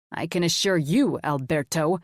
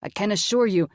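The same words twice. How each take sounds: First: Firm, slightly aggressive emphasis; mildly aggressive. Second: Said in the usual way. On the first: A narrator's reading. Wealthy guest to waiter, a bit aggressive. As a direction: turn the waiter's phrase back on him, firmly. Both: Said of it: "a bit more aggressively".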